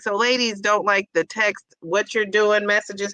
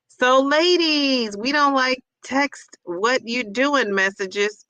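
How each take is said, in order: First: Said in the usual way. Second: Slow reading. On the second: Shown as a demonstration. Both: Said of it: "So wait".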